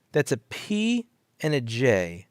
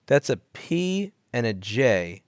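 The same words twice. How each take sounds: First: P punched, slow and drawn out; stress on P. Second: Slow, letter by letter; slow spelled out. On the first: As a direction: hit the P, slowly. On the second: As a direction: spell out each letter slowly. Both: Shown as a demonstration. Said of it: "repeated slowly".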